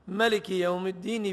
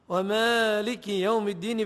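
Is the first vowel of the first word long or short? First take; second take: short; long. First: The first vowel of the first word is short. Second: The first vowel of the first word is long. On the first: "بلا ألف" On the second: "بالألف"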